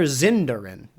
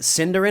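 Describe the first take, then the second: First: The word begins with a Z sound. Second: The word begins with an S sound. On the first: The speaker calls it wrong. "It's not Zin" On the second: The speaker calls it right. "There's no Z sound"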